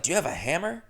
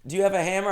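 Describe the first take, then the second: First: Said in the usual way. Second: Higher, lightly voiced landlady asking; a hint of the landlady's eager ask. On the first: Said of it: "And she doesn't talk like that". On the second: Host quotes the landlady's request, lightly voiced landlady. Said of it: "She goes".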